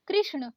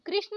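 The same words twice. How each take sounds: First: कृष्ण with curled-tongue ण; correct retroflex ण. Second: कृष्ण ending in plain न; wrong dental N. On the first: Teacher correcting learners, retroflex कृष्ण. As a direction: curl back for ण in कृष्ण. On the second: Teacher showing learners the mistake, dental-N कृष्ण. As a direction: say कृष्ण as कृष्न. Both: Shown as a demonstration. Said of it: "नहीं".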